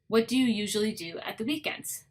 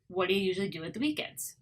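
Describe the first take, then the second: First: Each word is said fully and separately. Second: The words run together with reduced sounds.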